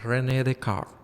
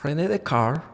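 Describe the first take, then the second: First: The name is said with French pronunciation. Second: The name is said with French pronunciation.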